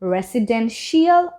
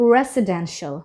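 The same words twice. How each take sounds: First: The ending is two syllables, like 'shee-al'. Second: The ending is one syllable, like 'shul'. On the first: The speaker calls it wrong. "আর বলবো না" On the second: The speaker calls it right. "বলবো রেসিডেন্সিয়াল"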